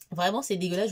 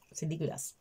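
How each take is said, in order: First: Disgust said out loud. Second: Whispered disgust. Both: Real, not acted. Goûte l'infusion.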